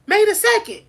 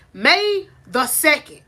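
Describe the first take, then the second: First: May the second punched high and loud; a louder, higher echo; high emphatic repeat. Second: May the second drawn out, rising; a slow, rising take; slow rising statement. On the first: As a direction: hammer May the second home. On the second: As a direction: let May the second hang like a question. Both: Shown as a demonstration. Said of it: "Y'all, we in May".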